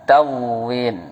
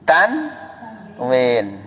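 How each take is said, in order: First: No n sound is heard before the w. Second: An n sound is heard before the w. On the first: The speaker calls it wrong. "bukan tawin" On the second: The speaker calls it right. "Tanwin, bukan tawin"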